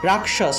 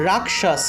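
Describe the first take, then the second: First: The middle cluster sounds like k plus sh. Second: The middle cluster sounds like k plus sh.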